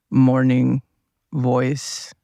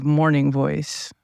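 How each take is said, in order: First: Put-on playful, lowered morning voice with an accent; put-on low voice. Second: Said in the usual way. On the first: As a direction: drop into a mock deep morning voice. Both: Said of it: "talking with a low voice".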